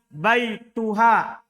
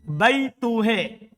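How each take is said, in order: First: The final vowel is a plain open 'a'. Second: The final vowel is tilted toward 'e'.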